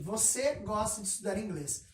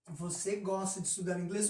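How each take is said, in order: First: It is said with a plain statement tune. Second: It is said with a questioning tune. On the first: It states a fact. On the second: It asks a question.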